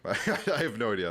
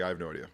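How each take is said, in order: First: Laughing through the words. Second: Said in the usual way. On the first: Real, not acted. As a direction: chuckle while saying it. Repeats it laughing.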